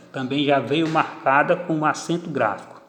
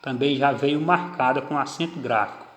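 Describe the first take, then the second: No difference in how they are said.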